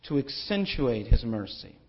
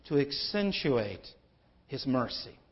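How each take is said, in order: First: "His" given the main weight, falling after; stress on His. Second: Said in the usual way. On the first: Shown as a demonstration. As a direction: lean on "His" in "His mercy".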